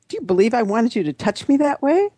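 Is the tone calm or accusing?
accusing. It is said in a sharp, accusing tone.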